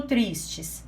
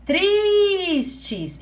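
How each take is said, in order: First: Said in the usual way. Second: "Tristes" with a high, long, held "tris"; stress on TRIS. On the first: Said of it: "Qual é a sílaba mais forte". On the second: Shown as a demonstration. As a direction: stretch the first syllable of "Tristes" high, then drop on "tes". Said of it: "é o tris". ("Tristes" com o "tris" agudo e bem alongado)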